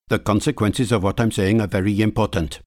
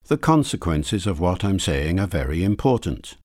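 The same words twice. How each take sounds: First: Every syllable takes roughly the same amount of time. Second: Stressed syllables come at regular beats, others squeezed. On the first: "Syllable timed" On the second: "Stress timed"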